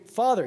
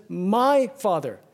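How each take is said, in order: First: Said in the usual way. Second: "My" leaned on, drawn out slowly; stress on My. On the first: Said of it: "He doesn't even just say". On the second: Shown as a demonstration. Preacher contrasting Jesus' prayer with plain Father, stressing "My". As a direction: dwell on "My" in "My Father". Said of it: "to emphasize the intimacy".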